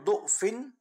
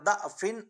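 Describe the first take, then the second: First: The first vowel is a rounded 'u' sound. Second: The first vowel is an open 'a' sound. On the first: "पेश" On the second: "पेश के बजाय जबर के साथ पढ़ना भी जायज"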